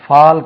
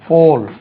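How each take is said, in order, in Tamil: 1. இது தமிழ் பாணி திறந்த 'aa'. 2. இது வட்டமான ஆங்கில 'aw'. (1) "fall கிடையாது" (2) "இது fall"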